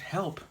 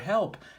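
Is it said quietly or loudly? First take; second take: quietly; loudly. First: It is said quietly. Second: It is said loudly.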